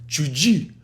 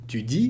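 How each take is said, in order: First: A hissing sound follows the t and d. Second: The t and d sounds are plain.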